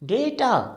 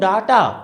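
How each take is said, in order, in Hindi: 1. पहले अक्षर में 'ay' स्वर है। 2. पहले अक्षर में खुला 'ah' स्वर है। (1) "जैसे हम कहते हैं बेटा, लाइक डेटा" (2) "अगर आप इसको बोलते हो डाटा, तो काम खत्म, रिजेक्शन"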